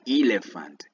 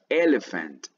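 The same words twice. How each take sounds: First: It begins with a long 'ee' sound. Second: It begins with a short 'e' sound. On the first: The speaker calls it wrong. "No es elephant" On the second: The speaker calls it right. "Es elephant"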